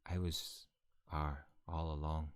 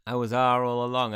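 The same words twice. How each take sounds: First: Understated, slow confession in character; low-key, drawn-out reveal; Rowan's reveal. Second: Shouted confession, higher than usual; full-volume villain-style unmasking; loud dramatic reveal. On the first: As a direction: let the twist out slowly and quietly. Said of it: "No, he'd say". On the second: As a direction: belt out the big twist. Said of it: "comes at the last chapter and goes". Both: Acted.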